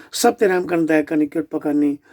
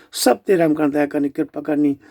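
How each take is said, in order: The two takes are said the same way.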